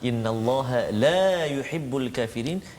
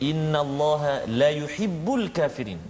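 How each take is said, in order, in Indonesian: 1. Vokal dalam 'la' panjang. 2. Vokal dalam 'la' pendek.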